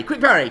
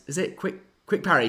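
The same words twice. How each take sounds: First: High, loud burst of recognition; excited recall. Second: Said in the usual way. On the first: Real, not acted. Host suddenly remembers the feint name, excited. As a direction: blurt it out as it comes back.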